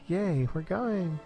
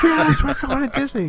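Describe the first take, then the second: First: It sounds mildly pleased and rather flat. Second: It sounds wildly excited, like kids on TV.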